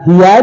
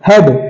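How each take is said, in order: First: The vowel is split into two sounds, 'ee-a'. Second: The vowel is a single short 'e' sound. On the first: The speaker calls it wrong. "हियाड है? नहीं" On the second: The speaker calls it right. "इसे हम हेड बोलते हैं"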